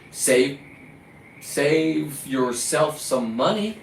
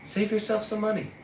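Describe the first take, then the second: First: Slow, sarcastic stretched-out advice; slow mocking drawl. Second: Higher and softer sarcastic voice; sarcastic put-on voice. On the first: Fisherman mocking store buyers, slow and sarcastic. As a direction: stretch money out slow with a rise. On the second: Fisherman mocking store buyers in a higher, softer put-on voice. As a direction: sneer the advice in a put-on voice. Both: Real, not acted.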